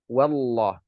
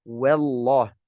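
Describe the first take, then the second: No difference in how they are said.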